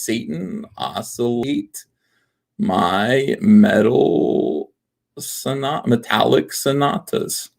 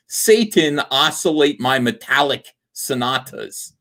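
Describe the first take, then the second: First: MY METAL stretched out extremely slowly; halting, very slow reading that breaks off at SONAT-; drawn out. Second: Said in the usual way. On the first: Shown as a demonstration. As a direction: sound it out slowly, following the letters. Traces palindrome slowly letter by letter.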